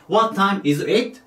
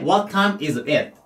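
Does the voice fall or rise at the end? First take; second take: rise; fall. First: The voice rises at the end. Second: The voice falls at the end. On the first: The speaker calls it wrong. "じゃなくて" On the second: The speaker calls it right. "最後は下げて読んでください"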